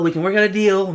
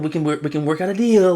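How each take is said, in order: First: Higher, louder eager negotiator; second, more insistent take of the mock plea; mock dealmaker voice. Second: Lightly voiced eager negotiator; a hint of a wheedling deal offer; mock dealmaker voice. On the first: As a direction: repeat the offer pushing harder, pitch up. Repeated mock deal offer.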